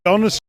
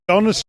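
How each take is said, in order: The two takes are said the same way.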